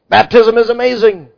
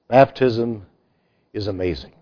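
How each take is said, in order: First: It is said with more excitement and energy. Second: It is said calmly with little excitement. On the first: The speaker calls it right. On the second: The speaker calls it wrong.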